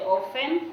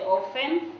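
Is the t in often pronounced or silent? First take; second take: silent; silent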